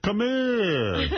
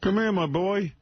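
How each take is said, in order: First: High, laughing imitation of a Jersey senator; mock senator. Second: High, hammed-up Jersey senator; mock senator. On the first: Host mimics the senator's call while laughing, high mock Jersey voice. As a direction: ham up the senator beckoning. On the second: Host parodying the senator calling Jackie over, hammed-up high voice. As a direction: beckon like a movie mobster, pitched up.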